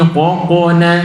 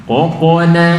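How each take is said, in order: Both takes have the same delivery.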